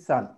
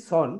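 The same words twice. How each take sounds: First: সান with an open a, as in the sun; open vowel. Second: সন with a rounded o, following the spelling s-o-n; common mistaken vowel. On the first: Teacher quotes how we say s-u-n, open a. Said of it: "সেটাকে আমরা বলতেছি". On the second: Teacher quotes how we say s-o-n, rounded o. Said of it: "এটাকে আমরা বলতেছি". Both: Shown as a demonstration.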